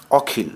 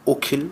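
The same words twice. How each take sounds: First: অখিল with an open aw sound, ɔkhil; open vowel take. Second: অখিল said okhil with a rounded closed o; closed o take. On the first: Teacher shows the open-vowel reading of অখিল first, open ɔ. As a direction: say অখিল starting on a wide open ɔ. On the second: Teacher gives the correct closed-o reading of অখিল, rounded o. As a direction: start অখিল on a tight o, like ওখিল. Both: Shown as a demonstration. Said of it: "চিহ্নিত নিয়মের ব্যতিক্রম।".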